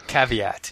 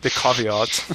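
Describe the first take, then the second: First: Caveat as KAV-ee-at, flat a sounds; plain caveat. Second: Caveat as KAH-vee-aht in a light English accent. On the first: Host repeats caveat in his usual way. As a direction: say caveat plainly with short a vowels. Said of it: "No, you have to say it with an". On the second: Co-host dares him, so he says caveat in mock English accent. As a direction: try caveat the English way, broad ah sounds. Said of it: "you have to say it with an English accent". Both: Shown as a demonstration.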